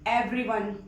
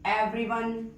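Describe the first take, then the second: No difference in how they are said.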